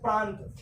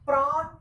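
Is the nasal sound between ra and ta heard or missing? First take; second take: heard; missing. First: The nasal sound before t is clearly heard. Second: The nasal sound before t is missing. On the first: "मैं बोल रहा हूं प्रांत" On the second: "रा और ते के बीच की ध्वनि नाक में, इसलिए उसका बाहर उच्चारण नहीं हो पा रहा है"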